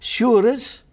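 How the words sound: The vowel is 'oo', Scots-like.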